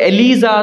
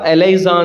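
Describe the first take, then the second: First: The second syllable is said 'lee'. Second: The second syllable is said 'lie'. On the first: This is how Indians usually say it. "ನಾವು Indians ನಾವು ಇದನ್ನ ಹೆಂಗ್ ಕರಿತೀವಪ್ಪ" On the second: This is how it is said abroad. "Foreign ಪ್ರಕಾರ"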